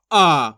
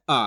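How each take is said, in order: First: आ held long with force; forceful long AA. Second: Said in the usual way. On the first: Shown as a demonstration. Teacher contrasting with simple sound, आ long and forceful. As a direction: push hard on आ and stretch it. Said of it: "जोर लगाएंगे इसको उच्चारण में". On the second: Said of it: "इसका तो simple उच्चारण है".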